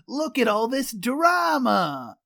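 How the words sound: It is said in a thick regional accent. The speaker calls it wrong. "this is a guy with a thick accent"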